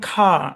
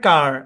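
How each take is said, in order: First: It is said without a final r sound. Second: It is said with a final r sound. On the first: "ব্রিটিশে" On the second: "আমেরিকানে"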